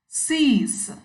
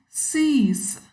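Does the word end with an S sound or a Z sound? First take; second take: S sound; S sound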